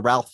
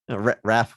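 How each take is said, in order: First: The name is said with an l sound. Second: The name is said without an l sound. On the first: The speaker calls it wrong. "second to Ralph Phineas" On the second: The speaker calls it right. "but Raph"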